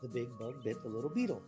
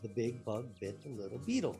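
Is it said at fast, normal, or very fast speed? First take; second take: fast; normal. First: It is said at a faster speed. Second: It is said at a normal speed.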